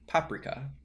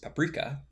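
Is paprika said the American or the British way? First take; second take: British; American. First: It is said with the British pronunciation. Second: It is said with the American pronunciation. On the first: "in British English and a lot of other parts of Europe, it's more commonly" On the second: "In the US, the standard pronunciation is"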